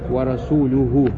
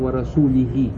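First: The word ends with the vowels u-hu. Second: The word ends with the vowels i-hi. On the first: The messenger is also free of the polytheists. The speaker calls it right. "Правильно же?" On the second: God is free of the polytheists and of his messenger. The speaker calls it wrong. "А один прочел"

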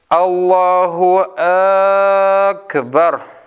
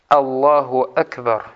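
First: An extra vowel is added at the start of Akbar. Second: Both words are said short, with no added vowel. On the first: It turns the phrase into a question: is He the greatest? The speaker calls it wrong. "Добавляют «Хамзу» к слову «Акбар». Говорят" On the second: It states that Allah is the greatest. The speaker calls it right. "Коротко. Так оно является правильным"

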